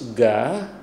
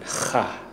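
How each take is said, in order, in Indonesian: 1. Kata ini diawali dengan bunyi g keras. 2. Kata ini diawali dengan bunyi h serak. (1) "tertulis ga" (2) "tetapi harus dibunyikan ha"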